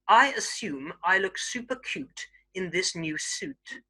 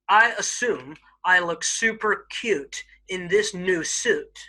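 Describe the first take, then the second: First: It is said in a standard British accent. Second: It is said in an American accent. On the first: "standard British English" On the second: "I'll first do it in an American accent"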